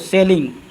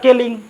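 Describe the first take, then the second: First: The word starts with an s sound. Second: The word starts with a k sound. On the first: The speaker calls it right. "इसीलिए इसका ध्वनि सौ के जैसा" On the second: The speaker calls it wrong. "अगर पढ़ लेते हैं गलती से क ... जो कि मेरा क्या है, गलत है"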